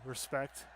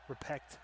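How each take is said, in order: First: Said in the usual way. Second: "Repect" read without the s, as typed; misspelt word read out. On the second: Shown as a demonstration. Reading his own typo aloud, "Repect" without the s. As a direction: say "Repect" exactly as misspelt, no s sound. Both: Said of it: "Christ, I can't spell".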